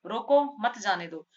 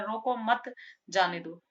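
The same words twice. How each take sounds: First: Louder रोको, short break, मत जाने दो; pause after रोको. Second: रोको मत joined, then जाने दो apart; pause after मत. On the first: Teacher contrasting two readings for students, pause after रोको. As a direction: set रोको apart, keep मत जाने दो together. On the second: Teacher contrasting two readings for students, pause after मत. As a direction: break between मत and जाने दो. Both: Shown as a demonstration. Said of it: "दो तरह से".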